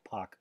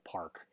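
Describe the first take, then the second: First: The name is said without any R sound. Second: The name is said with a hard R sound. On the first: The speaker calls it right. "it sounds more like Pak" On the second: The speaker calls it wrong. "not really pronounced with a hard R, like Park"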